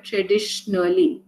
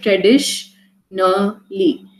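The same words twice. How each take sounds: First: Said in the usual way. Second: "Traditionally" slowly in three parts, tradish, na, li; split into syllables. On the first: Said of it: "three types, different sounds that this word constituted of". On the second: Shown as a demonstration. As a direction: break "Traditionally" into separate sounds with pauses between. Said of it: "different sounds that this word constituted of".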